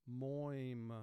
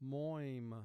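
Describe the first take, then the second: Both takes have the same delivery.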